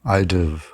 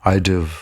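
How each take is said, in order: No difference in how they are said.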